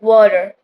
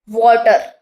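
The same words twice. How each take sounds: First: The middle consonant is a quick soft D. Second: The middle consonant is a clear, hard T. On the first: "in actually it sounds like water" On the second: "we say this word like water"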